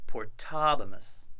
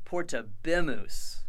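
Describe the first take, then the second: First: Portabimus said slowly with the stress on ta; slow, careful portabimus with the accent on ta; correct Latin accent. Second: Chanted, portabimus with the bi ending punched for memorizing; chanted, portabimus stressed on the bi, grammar-drill style; chant-style drill pronunciation. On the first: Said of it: "when we should be saying". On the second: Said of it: "we will say portabimus when we should be saying". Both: Shown as a demonstration.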